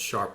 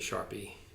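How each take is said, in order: First: The name is said as one syllable. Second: The name is said as two syllables. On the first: The speaker calls it right. "it's actually pronounced Sharpe ratio" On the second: The speaker calls it wrong. "I always mispronounce it to say Sharpie"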